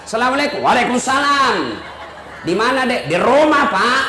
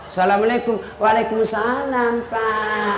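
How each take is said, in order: First: Brisk, firm, no-nonsense answer. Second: A hint of a breathy, sultry answer; soft sultry voice. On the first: Shown as a demonstration. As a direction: answer the boss curtly and firmly. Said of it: "Coba kau tegas". (suara tegas kepada kepala dinas) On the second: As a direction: answer the boss soft and seductive. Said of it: "jangan kasih sahdu suaramu". (suara lembut dan syahdu yang menggoda)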